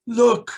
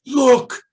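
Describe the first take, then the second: First: High, loud repeated look; higher, louder child's repeat; excited child. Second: High, loud urgent look; loud high child's call; excited child. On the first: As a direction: insist in wonder. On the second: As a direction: point and cry out in wonder. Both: Retold or imitated. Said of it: "And he says".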